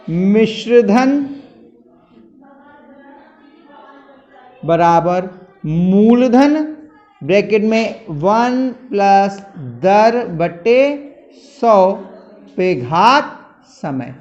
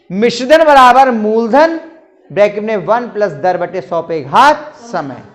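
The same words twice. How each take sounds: First: Slow, word by word for copying down; slow dictation. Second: Said in the usual way. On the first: Shown as a demonstration. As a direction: dictate the formula slowly so students can write it. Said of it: "मिश्रधन लिख दे रहे हैं". (धीरे-धीरे लिखवाते हुए) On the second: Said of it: "ये सूत्र होता है".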